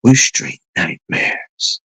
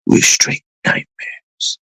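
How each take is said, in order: First: Slow, whispered gangster menace; imitating a villain's slow whispered threat; menacing film villain. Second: Slow whispered gangster line; re-doing the villain's whispered threat; menacing film villain. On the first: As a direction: hiss it like a movie villain. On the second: Retold or imitated. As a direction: breathe it out as the villain. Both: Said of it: "And then he goes something like".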